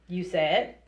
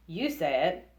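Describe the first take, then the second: No difference in how they are said.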